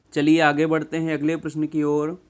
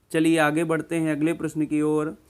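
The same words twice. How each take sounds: No difference in how they are said.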